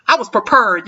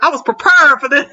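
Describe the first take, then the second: First: Prepared said pruh-PERD; wrong pronunciation. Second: Prepared said pree-PAIRD, clearly; right pronunciation. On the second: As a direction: say prepared with a full pre. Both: Shown as a demonstration. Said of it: "not prepared".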